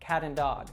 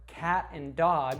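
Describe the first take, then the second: First: The T of cat is a quick D-like flap. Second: The T of cat is a crisp, clear T.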